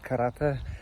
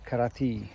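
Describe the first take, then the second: First: It is said with a Polish pronunciation. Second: It is said with an English pronunciation. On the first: "In Polish is karate" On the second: "but in English is karate"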